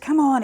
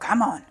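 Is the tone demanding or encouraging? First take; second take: encouraging; demanding. First: It sounds bright and cheerfully encouraging. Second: It sounds pushy and demanding. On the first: The activity is still a joyful passion. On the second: The activity has become a chore.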